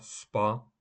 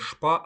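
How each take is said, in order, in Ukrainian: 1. Слово починається зі звуку s. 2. Слово починається зі звуку sh. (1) "а СПА" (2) "не ШПА"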